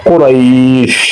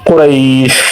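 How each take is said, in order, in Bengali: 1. শব্দটি শেষ ব্যঞ্জনবর্ণে থামে। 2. শব্দটি শেষ ব্যঞ্জনবর্ণে থামে।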